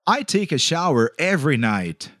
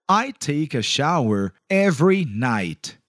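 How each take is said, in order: First: The sentence is said at normal, faster speed. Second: The sentence is said slowly and carefully.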